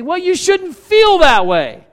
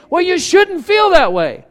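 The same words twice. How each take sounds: First: Higher, louder, slow brush-off; dismissive husband. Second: Higher, louder brush-off; dismissive husband. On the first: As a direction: brush off the feeling like a fixer. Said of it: "we say". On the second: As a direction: wave the feeling away. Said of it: "who are we to say". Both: Retold or imitated.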